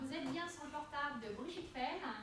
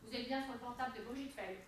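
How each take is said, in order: First: The voice sounds warm and smiling. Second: The voice sounds flat and unsmiling. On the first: The caller wants to leave a message. The speaker calls it right. "Et la banane. Regardez" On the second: The speaker seems unknown and unsure. The speaker calls it wrong. "Je le fais autrement"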